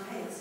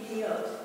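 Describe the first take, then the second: First: The word ends with an 'as' sound. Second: The word ends with an 'ot' sound. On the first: "We pronounce payas"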